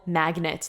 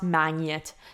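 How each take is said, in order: First: The g and n are pronounced as separate sounds. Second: The g and n merge into one ny sound. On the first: The speaker calls it right. "when you have G and N in English, you get gn" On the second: The speaker calls it wrong. "not magnet"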